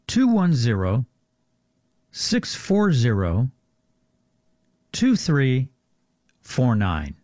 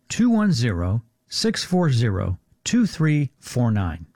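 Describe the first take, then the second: First: The number is said more slowly. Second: The number is said at normal speed.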